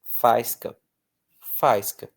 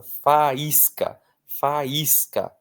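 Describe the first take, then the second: First: Faisca said as two syllables, ai a diphthong, stress on fai; wrong stress, FAIS-ca. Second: Faísca with the í as the strongest syllable, fa-ÍS-ca; stressed í. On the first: Teacher showing the class the wrong faisca without the accent. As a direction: run the a and i together into FAIS-ca. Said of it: "se eu não acentuo, vira faisca". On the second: Teacher showing the class the correct faísca, í stressed. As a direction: lean on the í in faísca. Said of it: "Então, eu preciso acentuar". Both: Shown as a demonstration.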